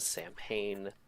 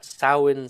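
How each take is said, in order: First: It is said as 'Sam Hain'. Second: It is not said as 'Sam Hain'. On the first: The speaker calls it wrong. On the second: The speaker calls it right.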